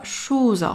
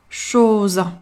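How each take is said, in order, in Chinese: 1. 这个元音听起来像u。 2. 这个元音是一个圆唇的闭口o。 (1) "千万不能发成类似于u 的音，如果发成了shoes" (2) "第一个小口的o"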